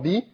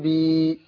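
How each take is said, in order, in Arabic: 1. الحركة قصيرة، بحركة واحدة. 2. الحركة طويلة، تُمد لحركتين. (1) "باء كسرة بي" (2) "باء كسرة مادة طبيعية حركتين بي"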